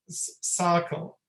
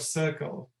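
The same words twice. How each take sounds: First: The first vowel is a low, open 'ah'. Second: The first vowel is a relaxed, neutral 'uh'. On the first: The speaker calls it wrong. "they would substitute it with ah, ... the tongue is lower in the mouth" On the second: The speaker calls it right. "a very neutral vowel with the tongue in the middle of the mouth in a relaxed position"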